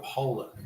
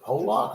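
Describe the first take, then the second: First: Pollock said with a reduced "-ick" ending; Pollock, second vowel weakened to a short i; alternate pronunciation. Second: Pollock said as POH-lock, full second vowel; alternate pronunciation. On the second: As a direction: say Pollock with a clear "lock" ending. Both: Shown as a demonstration. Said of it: "I don't know how you pronounce it".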